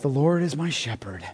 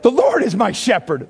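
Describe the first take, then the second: First: It is said in a flat, somber way. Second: It is said in a lively, joyful way. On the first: The psalm is treated as a mournful funeral text. The speaker calls it wrong. "David's not saying it like this" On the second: The psalm is a celebration of abundant life. The speaker calls it right. "He's like"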